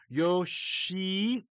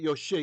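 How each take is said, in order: First: The i vowel is held long. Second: The i vowel is kept short. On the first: The speaker calls it right. "I don't know if you could hear the long chirik" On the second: The speaker calls it wrong.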